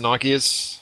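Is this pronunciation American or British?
British. It is said with a British pronunciation.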